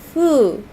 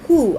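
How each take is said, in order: First: It starts with a sound between f and h. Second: It starts with a clear h sound. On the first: "a middle ground ... fu plus who" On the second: "Some people pronounce it as H U"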